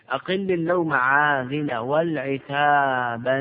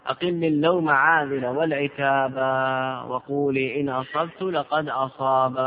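First: والعتابا said with its final long a carried on; verse with the tanween. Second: والعتاب said with a plain final alif and no nun; verse in the original form with the alif. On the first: Teacher to students, والعتابا voiced with the tanween of singing. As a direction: stretch the end of والعتابا as sung. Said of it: "هذا التنوين، تنوين الترنم". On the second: Teacher to students, والعتاب in its original form with the alif. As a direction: give والعتاب its long alif, no tanween. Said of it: "بالألف". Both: Shown as a demonstration.

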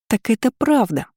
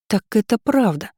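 First: A high, squeaky cry with a falling end on «правда»; squeaking. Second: A bright, surprised exclamation with the voice lifted on «правда»; exclaiming in surprise. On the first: Lira turning to Florence, high squeak. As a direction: squeak it out in delight. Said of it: "пропищала Лира". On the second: Lira catching Florence out, surprised exclamation. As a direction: blurt it out as sudden news. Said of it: "воскликнула она". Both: A narrator's reading.

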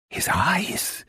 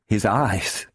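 First: High breathless whisper of dread; a high, unvoiced cry of fear; horrified whisper. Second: Said in the usual way. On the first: A narrator's reading. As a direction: gasp it out in horror, barely voiced. Horrified repeat.

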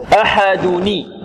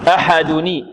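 First: أحدني said slowly with clear -ni; kasra on the nun. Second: أحدني said at normal speed with -ni; kasra on the nun again. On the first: Teacher showing the kasra linking for students. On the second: Teacher repeating the linked kasra for students. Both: Shown as a demonstration. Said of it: "نكسر".

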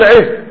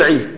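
First: عيه with a breathy final ha to stop on; correct pausal form. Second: عي ending on a short open vowel, no final ha; عي said cut off with the vowel left hanging; wrong pausal form. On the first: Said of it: "تقول عيه". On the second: Teacher to students showing the wrong pausal form, vowel left open. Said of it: "ما ينبغي تقول عي". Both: Shown as a demonstration.

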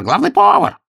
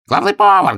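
First: Loud repeated call, high; shouting again. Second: Loud call, very high; shouting. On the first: Master of ceremonies calls the head cook a second time, loud. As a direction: keep yelling for him. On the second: Master of ceremonies yells for the head cook, loud. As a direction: yell for the cook across the palace. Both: Acted. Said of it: "закричал".

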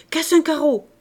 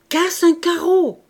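First: High, loud barked order; thundering shout. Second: High, loud, slow command; insistent repeated shout. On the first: Father ordering his younger daughter, thundering shout. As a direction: fire off the command angrily. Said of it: "lui cria d'une voix tonnante". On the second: Father insisting to his frozen child, drawn-out shout. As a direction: shout it drawn out, hammering each word. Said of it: "reprit-il". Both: A narrator's reading.

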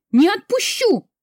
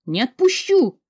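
First: Much higher, louder scream; frantic scream. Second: High, loud refusal; desperate shout. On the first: Heroine screams her refusal at full force. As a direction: break into full panic on it. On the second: Heroine refuses to leave, shouting. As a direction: shout it as you fight to stay. Heroine resists being dragged. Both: Acted.

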